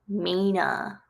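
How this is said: The final r sound is dropped. "because of the northern accent, it actually sound pronounced Maina"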